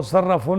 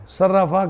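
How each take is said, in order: First: صرفون ending in "-un"; wrong tanween ending. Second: Said in the usual way. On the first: Shown as a demonstration. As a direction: say صرفون with an n on the end. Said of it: "نہیں پڑھیں گے". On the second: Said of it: "صرفون نہیں پڑھیں گے".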